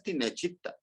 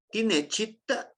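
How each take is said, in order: First: Tinechita said as a statement, falling and flat at the end; affirmation tune. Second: Tinechita with a question rise on the end; question tune. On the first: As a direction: say tinechita as a plain statement, no question lift. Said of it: "Es una afirmación". (tinechita como afirmación, con tono descendente) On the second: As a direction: ask it: tinechita, rising sharply at the close. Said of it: "si nosotros le ponemos este signo de interrogación". (tinechita como pregunta, con subida final) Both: Shown as a demonstration.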